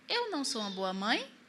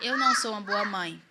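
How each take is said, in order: First: It is said as a questioning rise. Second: It is said as a flat, final statement.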